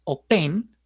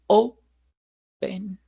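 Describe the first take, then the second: First: The stress is on the last syllable. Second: The stress is on the first syllable. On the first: The speaker calls it wrong. "no es open" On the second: The speaker calls it right. "sino open. Como el acento no está en la última sílaba"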